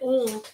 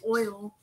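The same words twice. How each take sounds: First: Oil is said in the local regional accent. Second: Oil is said in a non-local accent. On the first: This is how people from here say it. "We say oil" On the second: This is how people not from here say it. "but people say oil"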